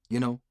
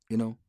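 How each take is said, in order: No difference in how they are said.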